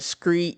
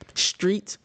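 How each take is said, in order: First: It is said the Atlanta way, like screet. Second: It is said the standard way, with a clear str.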